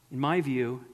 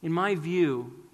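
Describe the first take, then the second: First: Catch in voice. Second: Slow, halting, emotion held back; mild retold struggle, slow and halting; struggling to speak. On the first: Retold or imitated. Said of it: "a catch in his voice". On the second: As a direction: push the words out against rising tears. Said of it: "he struggled to say".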